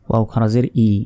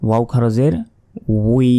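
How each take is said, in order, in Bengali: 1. শেষ অংশটি একটি সাধারণ 'ee' স্বরধ্বনি। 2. শেষ অংশটি 'w' থেকে 'ee'-তে গড়িয়ে যায়। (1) "সবগুলো যদি ই ই বলি তাহলে কিন্তু আমাদের পড়া ভুল হলো" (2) "সবগুলোর উচ্চারণই আলাদা"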